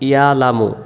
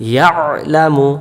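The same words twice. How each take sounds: First: The throat consonant is dropped from the word. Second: The throat consonant is pressed clearly in the word. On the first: The speaker calls it wrong. "আমরা বলি ইয়ালামু ইয়ালামু, ... আইন অক্ষরটা বাদ চলে গেল।" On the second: The speaker calls it right. "সহিহ করে পড়ার জন্য চেষ্টা করব।"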